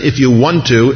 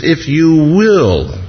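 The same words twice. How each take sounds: First: "want" as the contrasted word, said quickly in passing; stress on want. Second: "will" drawn out slowly with a falling tune; stress on will. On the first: Preacher rejecting a doubtful wording, stress on "want". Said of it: "It isn't". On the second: Preacher correcting how the leper asked, long emphatic "will". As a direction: land hard on "will", stretched and falling. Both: Shown as a demonstration.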